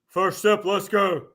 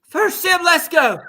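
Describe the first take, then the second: First: The voice is pitched deeper. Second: The voice is pitched higher. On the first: The speaker calls it right. "that was a little deeper" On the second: The speaker calls it wrong. "I don't sound like that"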